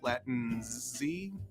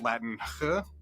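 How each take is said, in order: First: The word ends with a z sound. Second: The word ends with an h sound. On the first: "pronounced as a Z, like the first X in Xerox" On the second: "pronounced with an English H sound like in house"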